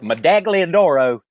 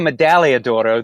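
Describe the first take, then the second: First: The g in the middle is pronounced. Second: The g in the middle is silent. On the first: "I usually have always called it" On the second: "the G is a silent"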